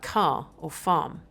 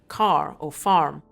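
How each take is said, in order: First: The R sound at the end is dropped. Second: The R sound at the end is pronounced. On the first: It sounds English. "more English pronunciations like" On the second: It sounds Scottish. "rhoticity, the R sound, found at the end of words like"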